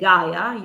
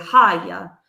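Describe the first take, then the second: First: The name begins with a hard G sound. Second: The name begins with a breathy H sound. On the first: The speaker calls it wrong. "you don't say Gaia" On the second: The speaker calls it right. "you say Haya"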